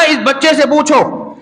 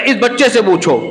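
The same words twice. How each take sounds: First: اس بچے سے پوچھو drawn out slowly, higher pitched; slow emphatic. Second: Said in the usual way. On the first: Acted. Preacher retelling Jurayj's answer, slow and emphatic. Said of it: "جب ابن جریج نے کہا نا". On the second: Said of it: "بولے".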